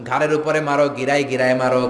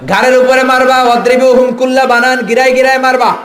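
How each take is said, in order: First: Said in the usual way. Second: High, loud sermon cry; raised preacher's voice, forceful and high; thundering preaching. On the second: Real, not acted. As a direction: thunder the command at the crowd.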